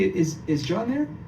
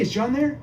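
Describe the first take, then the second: First: The voice sounds unsure and hesitant. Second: The voice sounds sure and confident. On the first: The speaker calls it wrong. "Sounds too confused" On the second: The speaker calls it right. "let me sound like I'm an expert"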